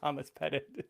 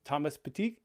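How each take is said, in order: First: The name is said with an English pronunciation. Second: The name is said with a French pronunciation. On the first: "instead of just saying Thomas Pettit" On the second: "tried the French pronunciation this time"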